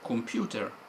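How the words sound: It is said with an Italian accent. "in Italian I say computer"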